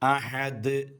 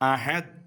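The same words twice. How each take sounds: First: The final d sound is clear and distinct. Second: The final d sound is weak and unclear. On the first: The speaker calls it right. "ദാല് നമ്മൾ നന്നായി വ്യക്തമായി ഉച്ചരിക്കണം" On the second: The speaker calls it wrong. "അഹദ് അഹദ് എന്ന് പറഞ്ഞാൽ പോരാ"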